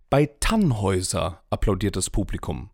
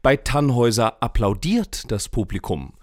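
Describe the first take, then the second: First: The word Tannhäuser carries the main stress. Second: The word applaudiert carries the main stress. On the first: Another opera got much less enthusiasm. "Beim Lohengrin hält sich die Begeisterung in Grenzen" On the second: The audience only clapped, without cheering or stamping. "Johlen und Stampfen ist nicht dabei"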